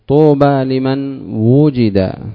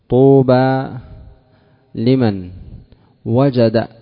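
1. الفعل يبدأ بحركة 'u': wujida. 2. الفعل يبدأ بحركة 'a': wajada. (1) "ضم الأول كسر ما قبل الأخير" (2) "وجد فعل والفاعل هو"

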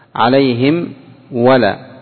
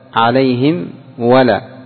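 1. الميم مُطبَقة تمامًا ومنطوقة بوضوح. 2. الميم مُطبَقة تمامًا ومنطوقة بوضوح.

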